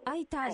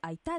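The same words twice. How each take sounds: First: The stress is on the first syllable. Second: The stress is on the last syllable. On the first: It means help me. The speaker calls it wrong. "アクセント前に置きますと助けてになる" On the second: It means thank you. The speaker calls it right. "後ろにアクセントを置きまして空いたですね"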